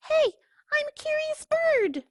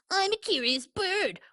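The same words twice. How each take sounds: First: Very high, sing-song duckling voice; sweetly innocent; curious duckling. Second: Pigeon parroting the duckling in a snide sing-song; mocking imitation. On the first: Acted. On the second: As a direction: mimic him to make fun.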